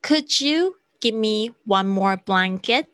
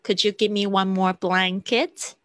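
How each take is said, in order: First: Slow polite request; slow polite model. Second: Said in the usual way. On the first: Shown as a demonstration. (慢速礼貌示范) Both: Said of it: "用could开始".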